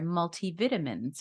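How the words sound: It is said with a British pronunciation.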